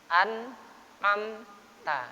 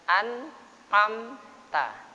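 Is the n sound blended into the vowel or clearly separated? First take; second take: separated; separated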